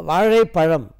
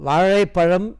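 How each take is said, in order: The two takes are said the same way.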